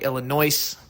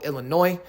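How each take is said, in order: First: The word ends with an audible s sound. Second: The word ends without an s sound. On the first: The speaker calls it wrong. "I'm saying it with an S" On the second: The speaker calls it right. "I think I'm pronouncing it right now"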